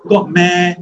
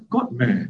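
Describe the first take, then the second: First: "God meh." punchy and higher, Singapore style; Singlish. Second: "God meh." in careful Western English, soft and falling. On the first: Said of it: "You're supposed to say". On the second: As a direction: say "God meh." like a Westerner, each word even. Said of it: "you're not supposed to speak in a Western way". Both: Shown as a demonstration.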